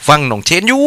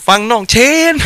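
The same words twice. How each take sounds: First: Put-on a first, careful try at the Suphanburi accent, a little higher. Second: Put-on playful Suphanburi accent, much higher, with the tone rising at the end; hammed-up Suphanburi accent. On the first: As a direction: say ฟังหน่องเชนอยู่ in a light Suphanburi accent with a rising end. (สำเนียงสุพรรณแบบเบาๆ ลองพูดครั้งแรก) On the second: (สำเนียงสุพรรณแบบล้อเลียน เสียงสูงขึ้นมาก) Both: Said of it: "พูดภาษาสำเนียงสุพรรณบ้านเรา".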